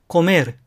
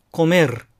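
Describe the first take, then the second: First: "コメール" as Spanish comer, final r tapped; short flapped r closing コメール. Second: "コメール" as Spanish comer, final r rolled; vibrating r closing コメール; trilled final r. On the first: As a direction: end コメール on one tongue flick. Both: Shown as a demonstration. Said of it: "いずれで発音しても構いません".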